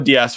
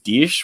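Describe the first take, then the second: First: The name is said with a Canadian pronunciation. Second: The name is said with a Portuguese pronunciation. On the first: "we are with our Canadian pronunciation" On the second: "with how the the per, per Portuguese pronunciations"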